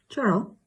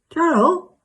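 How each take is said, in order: First: Tentative query. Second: High, loud call rising at the end. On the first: To Cheryl on a failing video call, tentative query. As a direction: check whether your friend is still there. Checking if friend still hears. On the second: To Cheryl after the call cuts out, high insistent call. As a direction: call louder to someone who has vanished. Calling to friend after lost connection. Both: Acted.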